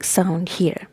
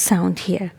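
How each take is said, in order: Both takes have the same delivery.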